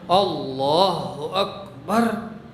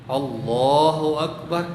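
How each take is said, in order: First: Every sound is firm and distinct. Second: The words are slurred and unclear. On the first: The speaker calls it right. "Jadi bunyi semua. Allahnya ya jelas, akbarnya jelas" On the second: The speaker calls it wrong.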